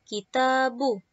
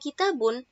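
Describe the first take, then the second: First: The word ends in a plain vowel, no n. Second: The word ends with an added n sound. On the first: The speaker calls it wrong. "tidak boleh hanya domah saja" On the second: The speaker calls it right. "wajib dibaca tanwin"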